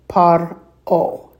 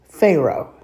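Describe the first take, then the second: First: It begins with p and splits as par-o. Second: It begins with f and splits as fe-ro. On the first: "But in Hebrew, it's par-o" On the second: "In English, it's Pharaoh"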